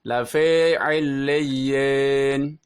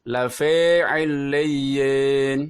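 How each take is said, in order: First: The i vowel drifts toward an e sound. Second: The same.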